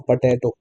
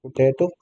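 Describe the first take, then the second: First: "potato" with an open "pa" first syllable; "potato" starting on an ah-like vowel; alternative pronunciation. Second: "Potato" with a rounded "poo" first syllable; "Potato" starting on an oo-like vowel; alternative pronunciation. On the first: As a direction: say "potato" as pa-TAY-toh. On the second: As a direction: say "Potato" as poo-TAY-toh. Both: Shown as a demonstration. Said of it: "correct pronunciation?".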